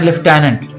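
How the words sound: It is said with a British pronunciation. "British बोलते हैं"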